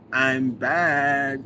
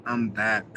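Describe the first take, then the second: First: Louder, punchy, showy reading; a hammed-up "I'm back"; hyped announcement. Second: Said in the usual way. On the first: Shown as a demonstration. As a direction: announce your return like a big entrance. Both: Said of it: "Is that how you said it in your brain".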